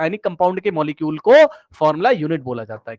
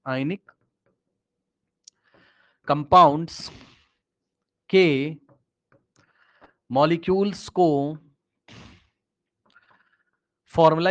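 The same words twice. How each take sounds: First: Said in the usual way. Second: Word by word, long pauses between each word; slow dictation. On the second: Shown as a demonstration. Teacher repeating slowly for a student who asked again, word by word. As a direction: spell it out slowly so students can write it down. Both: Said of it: "क्या बोला sir आपने?".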